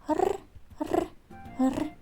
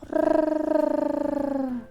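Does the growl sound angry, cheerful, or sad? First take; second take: cheerful; sad. First: The growl sounds cheerful and lively. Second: The growl sounds sad and quiet. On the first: The tiger is in a good mood. "Порикай разом з тигром весело" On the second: The tiger feels sad. "Сумно"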